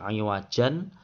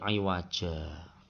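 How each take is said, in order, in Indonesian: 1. Kata ini berakhir dengan bunyi n. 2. Kata ini berakhir dengan vokal biasa.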